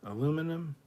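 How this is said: It is pronounced the American way. The speaker calls it right. "American aluminum"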